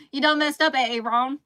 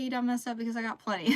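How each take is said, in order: First: Laughing, loud exaggerated Southern accent on the meme line; emphasized Southern accent. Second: Said in the usual way. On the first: Shown as a demonstration. Quoting the A A Ron meme to chat, in a hammed-up Southern accent. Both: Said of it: "emphasized Southern accent on accident".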